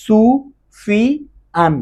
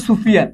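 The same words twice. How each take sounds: First: সুফিয়ান very slowly in three separated syllables. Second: Said in the usual way. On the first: Shown as a demonstration. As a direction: stretch সুফিয়ান into three beats with pauses. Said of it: "দেখো কয়বার উচ্চারণ করতে পারো". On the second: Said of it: "কয়বার উচ্চারণ করতে পারো".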